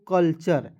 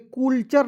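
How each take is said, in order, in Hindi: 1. पहला स्वर 'uh' जैसा बोला जाता है। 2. पहला स्वर 'oo' जैसा बोला जाता है। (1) "इसे पढ़ेंगे दोस्तों कल्चर" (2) "कुलचर नहीं पढ़ लीजिए"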